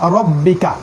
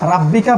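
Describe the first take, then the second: First: The r is followed by a rounded 'o' vowel. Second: The r is followed by an open 'a' vowel. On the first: The speaker calls it right. "রই বলবেন" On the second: The speaker calls it wrong. "কখনো রাব্বিকা বলবো না"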